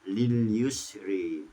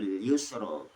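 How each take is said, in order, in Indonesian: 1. Vokal akhir itu condong ke arah 'e'. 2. Vokal akhir itu 'a' terbuka. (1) "membaca dengan imalah" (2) "Hak membaca"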